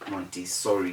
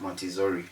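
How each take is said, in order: First: The middle consonant is a hissing S sound. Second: The middle consonant is a buzzing Z sound. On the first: The speaker calls it right. "The S should be S" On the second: The speaker calls it wrong. "instead of Montessori"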